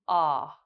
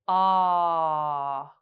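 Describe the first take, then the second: First: The vowel is said briefly at natural length. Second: The vowel is held for about three seconds. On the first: "we'll say it naturally" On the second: "hold the ah sound for three seconds"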